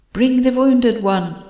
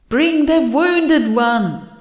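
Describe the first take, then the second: First: Slow, high voice inside the head; a distant mind voice speaking slowly; whispery telepathic voice. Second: Slow, high, insistent whisper; urgent whispered command in the head; whispery telepathic voice. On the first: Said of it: "came Andina's voice in my head". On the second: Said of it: "Andina is insisting really loudly". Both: Acted.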